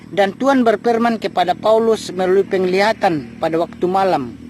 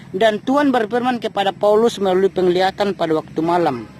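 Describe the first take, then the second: Both takes have the same delivery.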